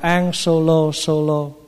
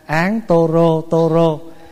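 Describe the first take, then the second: First: The repeated word starts with an s sound. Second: The repeated word starts with a t sound. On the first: This is how Chinese people recite it. "người Hoa ta đâu có đọc Tô Rô, ta đọc" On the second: This is how Vietnamese people recite it. "người Việt mình tụng là"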